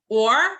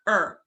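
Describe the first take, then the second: First: The vowel is full and clear. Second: The vowel is reduced to a short schwa.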